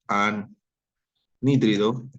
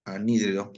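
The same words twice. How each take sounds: First: "anhídrido" stretched very slowly and a bit louder, every syllable spelled out; teacher correcting herself, stretching out "anhídrido"; drawn-out correction. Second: Said in the usual way. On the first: Shown as a demonstration. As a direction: slowly drag out "anhídrido" so the class writes it right. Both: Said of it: "perdón, disculpen".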